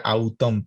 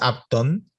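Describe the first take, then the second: First: The diphthong is read as a vowel sound. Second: The diphthong's second part is read as a consonant. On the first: The speaker calls it wrong. "parece que dijera autón" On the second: The speaker calls it right. "si buscan después los diptongos es aptón"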